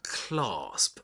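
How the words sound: It is said with a British accent. "that's British English"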